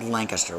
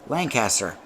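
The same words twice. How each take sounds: First: It is said the Pennsylvania way. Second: It is said the New England way. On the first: This is the Pennsylvania local form. The speaker calls it wrong. "we don't say Lancaster" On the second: This is the New England form. The speaker calls it right. "We say Lancaster. Lancaster is the proper pronunciation"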